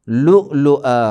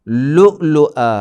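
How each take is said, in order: No difference in how they are said.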